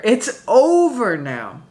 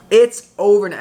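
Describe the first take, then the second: First: Slow and deliberate, leaning on over; It's over now drawn out slowly. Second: Louder, with normal pace; It's over now said firmly at speed; clipped, emphatic repeat. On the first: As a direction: stretch each word out, dragging over. Reader declaring the end. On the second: Repeats the same words. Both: Real, not acted.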